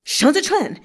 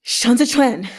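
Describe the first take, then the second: First: Much higher snapped name; betrayed commander snapping at his subordinate; angry snap. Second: Louder, higher anguished howl of the name; enraged howl. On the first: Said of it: "he snapped". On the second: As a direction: howl it like a wounded beast. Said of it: "Like a beast enraged, Xiao Chuye howled". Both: Acted.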